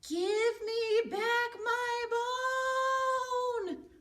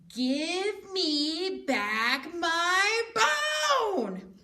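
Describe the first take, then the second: First: It is said a little louder. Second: It is said loudest of all.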